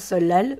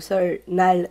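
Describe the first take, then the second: First: It is said with its real spoken pronunciation. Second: It is read out following its spelling. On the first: "mais se prononce Seollal" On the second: "qui s'écrit donc Seollal"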